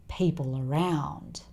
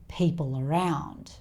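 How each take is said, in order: The two takes are said the same way.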